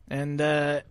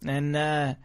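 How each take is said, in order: Both takes have the same delivery.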